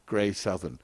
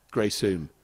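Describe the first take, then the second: First: "Grey Southern" read out in full as spelt; the mistaken spelling-pronunciation "Grey Southern"; wrong reading. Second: "Grey Soon" with the second word clipped to "Soon"; the local way, "Grey Soon"; corrected place name "Grey Soon"; local pronunciation. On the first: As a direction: say each word of "Grey Southern" as written. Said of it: "I was going to go Grey Southern". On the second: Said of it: "I have no idea I was talking about so wrongly". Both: Shown as a demonstration.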